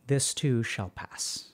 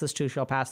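First: It is said slowly. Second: It is said very fast.

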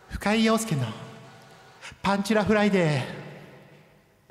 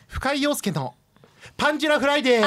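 First: The voice has an echo effect added. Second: The voice is dry with no echo.

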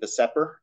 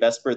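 First: Each letter is said separately. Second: The acronym is said as one word. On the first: This is the harder way to say it. The speaker calls it wrong. "than VSEPR" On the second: This is the usual, easier way to say it. The speaker calls it right. "we pronounce it VSEPR because it's easier to say"

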